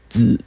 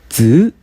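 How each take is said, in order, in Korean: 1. 다음 3성 앞에서는 음이 낮게 내려가요. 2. 음이 중간에서 높게 올라가요. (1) "그래서 삼성이 연속되면은" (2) "이거를 이성으로 고치면은"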